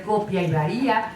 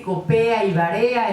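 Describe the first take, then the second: First: Said in the usual way. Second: COPEA and VAREA with stressed E before the A; nonstandard vowel shift. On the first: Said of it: "en lugar de copia y varía". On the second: Shown as a demonstration. Quoting how some people talk, stressed E in COPEA and VAREA. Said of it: "hay gente que dice copea".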